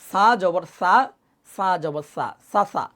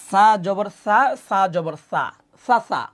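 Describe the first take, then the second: No difference in how they are said.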